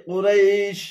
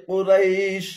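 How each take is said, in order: The two takes are said the same way.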